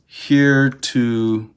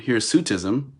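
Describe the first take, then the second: First: The word has no s sound after 'hir'. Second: The word has an s sound after 'hir'. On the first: The speaker calls it wrong. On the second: The speaker calls it right.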